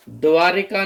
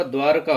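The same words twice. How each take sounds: First: द्वारिका with an इ after र; the incorrect द्वारिका, with -ri-; wrong form. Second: द्वारका with no vowel after र; the correct द्वारका, two syllables; correct form. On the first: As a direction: say द्वारिका as dvaa-ri-kaa, three clear syllables. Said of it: "द्वारिका नहीं होता". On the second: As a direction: say द्वारका as dvaar-kaa, the r joined straight to k. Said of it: "द्वारका होता है". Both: Shown as a demonstration.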